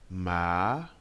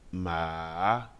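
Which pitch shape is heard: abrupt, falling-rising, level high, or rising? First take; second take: rising; falling-rising. First: The pitch climbs from low to high. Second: The pitch dips down and then rises. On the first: "Le deuxième ton part d'une voix grave pour aller dans les aigus" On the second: "Le troisième ton est descendant et remontant"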